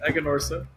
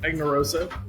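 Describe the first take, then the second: First: The name is said as Aganorsa. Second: The name is said as Agnarosa. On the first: The speaker calls it right. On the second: The speaker calls it wrong.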